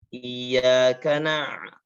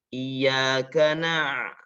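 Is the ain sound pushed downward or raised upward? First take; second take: upward; downward. First: The throat sound is raised upward. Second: The throat sound is pressed downward. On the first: "karena ke ataskan" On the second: "mesti ditekan ke bawah"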